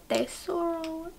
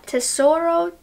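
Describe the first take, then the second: First: Tesoro said slowly and softly as teh-SO-ro, with a hint of Spanish; attempted Spanish accent. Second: Said in the usual way. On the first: Shown as a demonstration. Reviewer trying the shade name Tesoro in a mild mock Spanish accent. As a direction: savour Tesoro in a playful half-Spanish way. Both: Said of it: "I should be saying this with a Spanish accent".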